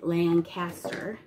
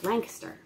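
First: It uses the pronunciation of a newcomer. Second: It uses the pronunciation of local residents. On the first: This is how a newcomer says it. The speaker calls it wrong. "When I first moved to Lancaster, Pennsylvania, I pronounced it Lancaster" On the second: This is how local residents say it. The speaker calls it right. "when you live here in Pennsylvania, you quickly learn that it's Lancaster"

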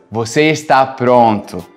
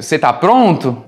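First: The pitch falls at the end like a statement. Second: The pitch rises at the end like a question. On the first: It states that the listener is ready. "Deixa eu te falar alguma coisa" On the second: It asks whether the listener is ready. "Deixa eu te perguntar alguma coisa"

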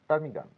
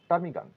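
The two takes are said the same way.

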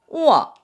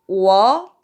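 First: It is said with the fourth tone. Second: It is said with the second tone. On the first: "4성은" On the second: "2성은"

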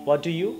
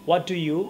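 Both takes have the same delivery.

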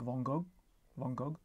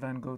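First: The name is said with a French pronunciation. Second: The name is said with a plain English pronunciation. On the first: "in France, as far as I can gather, they say something like" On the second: "the plain old Anglo version"

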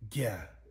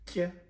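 First: The consonant is slack-voiced, with a breathy murmur. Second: The consonant is ejective, with a sharp glottal pop. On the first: "the slack voice" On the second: "we have the ejective"

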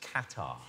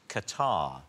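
First: The word does not sound like 'catarrh'. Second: The word sounds like 'catarrh', the mucus word. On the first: It names the country. The speaker calls it right. "it's Qatar" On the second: It names a build-up of mucus and phlegm. The speaker calls it wrong. "it's not Qatar"

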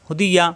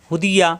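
The two takes are said the same way.

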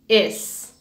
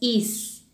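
First: The vowel sounds closer to a Spanish e. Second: The vowel sounds like a tense Spanish i. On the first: The speaker calls it right. "hago el sonido más hacia una E" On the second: The speaker calls it wrong. "no hago el sonido como el de una I. No digo is"

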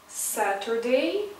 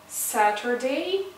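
No difference in how they are said.

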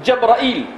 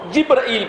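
First: The first syllable has an a vowel. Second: The first syllable has no a vowel. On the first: Most reciters read it this way. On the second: Some reciters read it this way.

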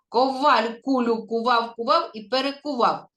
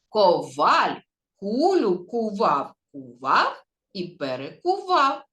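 First: It is said at the fastest pace. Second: It is said at a slow pace. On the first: "А тепер ще швидше" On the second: "А тепер давайте спробуємо разом, повільно"

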